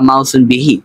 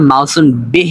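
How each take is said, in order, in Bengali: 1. শেষ শব্দটি শেষে 'i' স্বরধ্বনি দিয়ে শেষ হয়। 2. শেষ শব্দটি কোনো শেষ স্বরধ্বনি ছাড়া শেষ হয়। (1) "আমরা বিহি উচ্চারণ করব" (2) "বিহ না বলে"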